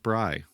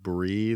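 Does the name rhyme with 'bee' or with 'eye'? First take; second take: eye; bee. First: The vowel is like the one in 'eye'. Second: The vowel is like the one in 'bee'. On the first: The speaker calls it right. "it's actually pronounced Bry, like Bright without the T" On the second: The speaker calls it wrong. "we were pronouncing her like Brie the cheese"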